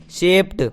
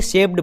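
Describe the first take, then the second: First: शेप्ड ending in a T sound; correct pronunciation. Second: शेप्ड meant with a D ending; wrong pronunciation. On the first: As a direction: say शेप्ड as "shept". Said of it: "जबकि ये होता है". (शेप्ड के अंत में ट की ध्वनि) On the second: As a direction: say शेप्ड ending on ड, the common mistake. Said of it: "कुछ लोग इसे शेप्ड पढ़ते हैं". (शेप्ड के अंत में ड) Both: Shown as a demonstration.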